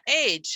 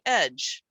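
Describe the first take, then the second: First: The ending rhymes with 'page'. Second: The ending rhymes with 'hedge'. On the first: The speaker calls it wrong. "A G E is not age" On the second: The speaker calls it right. "it's usually edge"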